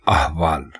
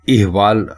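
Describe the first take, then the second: First: The word begins with an 'a' vowel. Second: The word begins with an 'i' vowel. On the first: The speaker calls it right. "दुरुस्त लफ्ज है अहवाल" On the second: The speaker calls it wrong. "इहवाल दुरुस्त लफ्ज नहीं है बल्कि गलत है"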